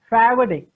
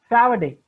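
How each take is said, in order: The two takes are said the same way.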